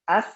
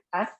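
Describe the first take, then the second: First: The final sound is cut short in one press. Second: The final sound is drawn out longer. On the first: The speaker calls it right. "Sekali tekan tuh" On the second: The speaker calls it wrong. "Kalau kita tambah bisa kan?"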